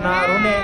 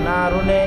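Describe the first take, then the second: No difference in how they are said.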